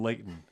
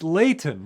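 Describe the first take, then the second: First: The middle T is not clearly pronounced. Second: The middle T is clearly pronounced.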